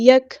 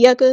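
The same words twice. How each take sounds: First: یک with the k fading into light breath; correct fading kaf. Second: یک with an extra vowel bounced after k; wrong kaf. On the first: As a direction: let the k in یک fade with breath. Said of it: "ہلکی سی آواز جو ہے وہ دھیمی ہو جاتی ہے". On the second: Teacher shows another error, bounced k in یک. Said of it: "ایسے بھی نہیں ہوتی". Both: Shown as a demonstration.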